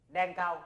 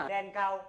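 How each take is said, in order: Both takes have the same delivery.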